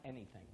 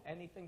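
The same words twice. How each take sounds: First: "Anything" low and soft, falling; "Anything" as a low, final answer; confirming echo. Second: "Anything" as a soft, retold question; "Anything" said softly, seeking confirmation; questioning echo. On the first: Retold or imitated. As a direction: confirm with a quiet, dropped "Anything". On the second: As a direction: check by echoing "Anything" quietly. Retold question echoed back as check.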